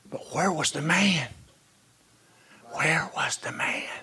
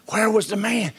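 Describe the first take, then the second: First: Whispered, much softer question; hushed question. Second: Said in the usual way. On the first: Acted. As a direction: drop to a whisper and ask it. Quiet rhetorical question in sermon.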